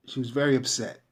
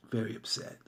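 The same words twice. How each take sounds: First: "very" leaned on, falling to a close; weight on "very" in she was very upset; stress on very. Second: Softer echo of "Very upset", dropped low; quiet repeat. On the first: Telling viewers about an upset caller, stress on "very". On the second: Repeating the client's mood to viewers, hushed. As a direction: let "Very upset" fall away under the breath. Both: Shown as a demonstration.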